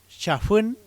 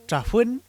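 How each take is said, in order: First: Chafuen said slowly with a clear ch at the start; standard form. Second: Chafuen said loud and high with a plain t sound at the start; regional form. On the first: Teacher gives the standard chafuen slowly to contrast. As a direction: stretch out chafuen with a full ch sound. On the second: Teacher shows the local way to say chafuen. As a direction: say chafuen with a t, not a ch. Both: Shown as a demonstration. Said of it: "por chafuen".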